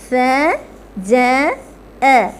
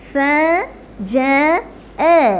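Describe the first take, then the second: No difference in how they are said.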